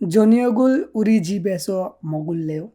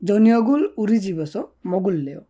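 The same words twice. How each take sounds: First: It is said with question intonation. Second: It is said with statement intonation. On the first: It asks whether the listener wants to eat dinner there. "যদি প্রশ্ন করেন।" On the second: It says the speaker wants to eat dinner at home. "আর যদি প্রশ্ন না করেন"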